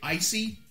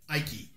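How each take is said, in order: First: The middle consonant is an s sound. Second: The middle consonant is a k sound. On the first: The speaker calls it right. "like you'd say icy" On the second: The speaker calls it wrong. "this guy was just butchering the fuck out of"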